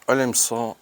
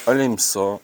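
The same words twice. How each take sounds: The two takes are said the same way.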